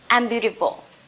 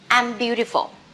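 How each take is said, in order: First: I and am are joined into one contracted syllable. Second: I and am are joined into one contracted syllable.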